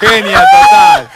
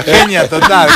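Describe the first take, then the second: First: High, slow, stretched exclamation of admiration; playful overdone admiration; drawn-out praise. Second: Said in the usual way. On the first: Real, not acted. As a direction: sing out the praise, long and high. Praising camionero's ex-wife.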